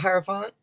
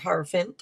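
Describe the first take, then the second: First: The last syllable sounds like 'font'. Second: The last syllable sounds like 'fint'. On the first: "however font fint you want to say it" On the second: "however font fint you want to say it"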